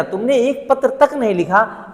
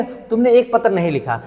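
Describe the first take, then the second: First: तक pressed with a reproachful lift; stress on तक. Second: Said in the usual way. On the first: Shown as a demonstration. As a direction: lean on तक as a complaint. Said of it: "अर्थात जोर दिया जा रहा है". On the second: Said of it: "नहीं, ऐसे नहीं कहा".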